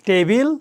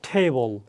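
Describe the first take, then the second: First: The t sound is plain, without a puff of air. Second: The t sound has a strong puff of air. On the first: The speaker calls it wrong. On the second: The speaker calls it right.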